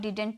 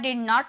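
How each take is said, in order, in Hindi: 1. दोनों d की आवाज़ें रहती हैं, यह दो शब्दांश वाला संक्षिप्त रूप है। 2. यह दो पूरे अलग शब्दों की तरह बोला जाता है। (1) "इसे हम डिडंट भी बोल सकते हैं" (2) "बिना कॉन्ट्रैक्ट किए बोलते हो ... तो फ्लुएंसी नहीं आती"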